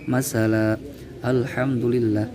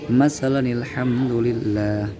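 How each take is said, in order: First: The reading stops with a pause between words. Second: The reading joins the words without a pause. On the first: "jika dibaca waqaf" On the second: "jika dibaca wasol"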